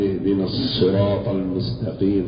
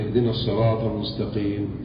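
First: The s sound at the word's start is doubled. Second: The s sound at the word's start is single. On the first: The speaker calls it right. "ينبغي أن يسمع للصاد تشديدا" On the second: The speaker calls it wrong. "لم يشدد على الصاد"

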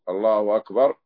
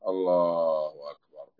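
First: The tune stays level as if continuing. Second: The tune drops as if closing. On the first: More of the prayer follows. "تكبيرات انتقالية" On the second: The prayer is finished. "يعني انتهيت"

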